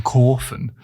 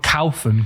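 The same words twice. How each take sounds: First: "kaufen" as the clip says it, a round "kor-fen"; right take of "kaufen", "kor-fen" as heard in the clip; corrected pronunciation. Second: "kaufen" with an L-like sound in the first syllable, "kalfen"; mock the misheard version "kaufen" as "kalfen"; rejected take of "kaufen", said as "kalfen"; wrong pronunciation. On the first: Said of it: "Not kaufen, kaufen". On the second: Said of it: "Not kaufen". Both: Shown as a demonstration.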